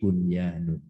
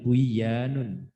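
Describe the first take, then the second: First: The n before the y is clearly sounded. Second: The n before the y is merged away. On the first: The speaker calls it right. "tapi bunyanun" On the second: The speaker calls it wrong. "bacanya bukan buyanun"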